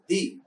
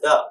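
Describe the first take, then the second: First: It is the form used before vowel sounds. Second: It is the form used before consonant sounds. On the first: "But when it is used before a vowel sound, it is the" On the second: "We use it or we pronounce it the when uh, it is used before a consonant sound"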